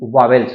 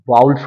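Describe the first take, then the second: First: The middle has a 'v' sound. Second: The middle has a 'w' glide sound. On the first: The speaker calls it wrong. "ये वावेल्स नहीं होता है" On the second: The speaker calls it right. "क्या होता है वाउल्स होता है"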